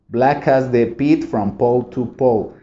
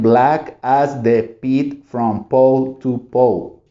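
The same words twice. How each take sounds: First: The line is said at a fast pace. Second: The line is said slowly and carefully. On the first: "Y cada vez más rápido" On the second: "Primero bien"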